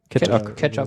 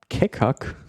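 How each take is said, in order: First: The name sounds like the word 'ketchup'. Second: The name sounds like 'kekak' with hard k sounds. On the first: The speaker calls it right. "So wie Ketchup?" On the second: The speaker calls it wrong.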